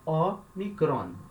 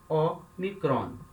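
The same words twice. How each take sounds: Both takes have the same delivery.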